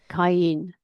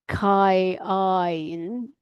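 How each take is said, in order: First: The word is said as one syllable. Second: The word is split into two syllables. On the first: The speaker calls it right. "it's all getting rolled into one I sound" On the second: The speaker calls it wrong. "rather than saying Kai-in"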